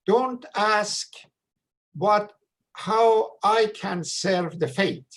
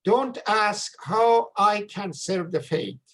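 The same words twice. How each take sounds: First: Slow and deliberate, stress on how; weighty quote. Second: Slow, stress on how with a falling tone; emphatic quote. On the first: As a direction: quote it slowly, leaning on "how" with a falling tone. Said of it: "he shared with us was". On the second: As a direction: hand it over slowly and land hard on "how". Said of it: "Pay, please pay attention". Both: Retold or imitated.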